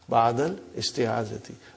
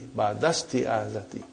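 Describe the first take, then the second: First: The initial vowel of the second word is pronounced. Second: The words run together with the initial vowel dropped. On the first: The speaker calls it wrong. "for simplicity, I still feel that while we are learning, whether we can say" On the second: The speaker calls it right. "your mother tongue is Arabic, you have no problem. Uh, so you will say"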